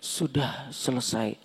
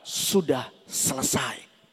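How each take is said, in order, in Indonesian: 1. Diucapkan dengan nada kalah dan putus asa. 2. Diucapkan dengan nada penuh kemenangan dan kejayaan. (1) "bukan orang hopeless. Jadi Tuhan gak bilang ini" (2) "Declare, itu adalah seruan kemenangan"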